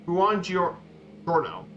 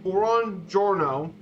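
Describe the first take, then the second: First: "Buongiorno" stretched long, falling; very slow buongiorno. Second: "buongiorno" very slow and careful. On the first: Presenter drilling the greeting for the class. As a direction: drag "Buongiorno" out slowly. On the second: Presenter teaching the class the formal greeting. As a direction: draw "buongiorno" out. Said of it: "a formal good morning is". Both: Shown as a demonstration.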